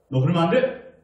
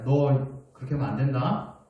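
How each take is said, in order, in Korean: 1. 큰 목소리로 말해요. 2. 작은 목소리로 말해요. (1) "점점점 목소리가 커져요" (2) "목소리가 작아요 처음에는"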